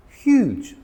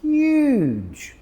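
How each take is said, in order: First: "Huge" said high and stretched to sound big; pitched-up, drawn-out "Huge"; emphatic big word. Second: "huge" said very high and long in awe; "huge" high and drawn out with wonder; amazed emphasis. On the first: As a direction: make "Huge" sound enormous. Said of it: "Huge means very big". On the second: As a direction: marvel at the palm tree on "huge". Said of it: "Look at the size of that palm tree". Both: Shown as a demonstration.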